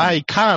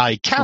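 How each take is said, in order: First: "I can" in an imitated Australian accent, long open "kaan"; Australian-accented "can" with a broad ah vowel. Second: "I can" as an imitated American Southerner, "kyan"; American-accented "can" with a y-glide before the vowel. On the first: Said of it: "生粋のオーストラリア訛り". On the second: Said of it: "母ちゃんがアメリカの南部生まれ".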